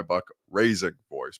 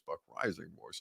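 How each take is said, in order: First: "Raising" said with a long A, like "raise"; "Raising" with an "ay" vowel in place of "eye"; name misread. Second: Said in the usual way. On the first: Real, not acted. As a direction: say "Raising" to rhyme with "phrasing". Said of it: "you could be Buck Raising". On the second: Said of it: "although you could be Buck Raising".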